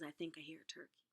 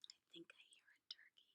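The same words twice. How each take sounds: First: It is spoken aloud. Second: It is whispered.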